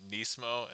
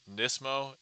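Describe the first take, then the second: First: Nismo said as "NEES-mo"; long-ee pronunciation. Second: Nismo said as "NISS-mo"; short-i pronunciation. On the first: Streamer asking a viewer about their name, long-ee pronunciation. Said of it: "some people pronounce your name Nismo". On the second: Streamer offering a viewer the other pronunciation, short-i pronunciation. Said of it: "pronounce it Nismo". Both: Shown as a demonstration.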